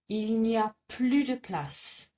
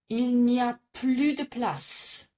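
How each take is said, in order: No difference in how they are said.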